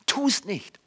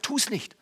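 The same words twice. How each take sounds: First: Quiet repeated warning. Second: Quiet warning. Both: Acted. Paulus warns against grumbling.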